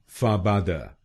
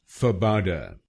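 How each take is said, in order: First: It is said with a Spanish accent. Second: It is said with an English accent.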